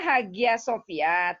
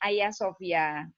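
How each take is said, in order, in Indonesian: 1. Kata pertama diucapkan dengan bunyi G. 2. Kata pertama diucapkan tanpa bunyi G. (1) "memang tulisannya Hagia Sophia" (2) "tapi kita bacanya Ayah Sophia"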